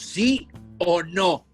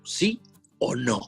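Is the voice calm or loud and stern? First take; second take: loud and stern; calm. First: It is said louder and much more sternly. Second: It is said at a normal, calm level.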